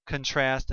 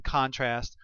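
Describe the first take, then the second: First: "contrast" said con-TRAST, first syllable reduced; second-syllable stress. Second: "contrast" said CON-trast, full first vowel; first-syllable stress. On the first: Teacher listing both forms, "contrast" as con-TRAST. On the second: Teacher listing both forms, "contrast" as CON-trast. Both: Shown as a demonstration. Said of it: "contrasting, contrast, and contrast".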